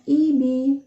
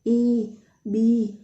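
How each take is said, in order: First: The vowels are said short. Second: The vowels are drawn out long. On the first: The speaker calls it right. "Jadi bacanya Ibi" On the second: The speaker calls it wrong. "itu agak panjang"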